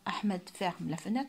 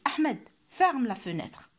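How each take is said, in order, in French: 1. Elle a une intonation de déclaration plate et neutre. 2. Elle a une intonation d'ordre ferme et autoritaire. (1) "Je ne dis pas" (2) "il y a une intonation comme si je donnais un ordre"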